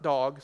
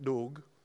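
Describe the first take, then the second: First: The vowel sounds like the one in 'dog'. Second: The vowel sits between 'Doug' and 'dog'. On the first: The speaker calls it wrong. "not dog" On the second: The speaker calls it right. "something in between"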